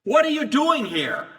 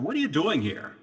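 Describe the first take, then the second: First: High, loud unfriendly demand; hostile challenge. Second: Said in the usual way. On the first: Shown as a demonstration. Demon confronting Jesus, a loud unfriendly challenge. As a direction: bark it like the person isn't welcome. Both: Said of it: "It usually isn't a friendly question".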